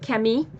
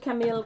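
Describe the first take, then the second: First: The name is said with a Quebec French pronunciation. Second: The name is said with an English pronunciation.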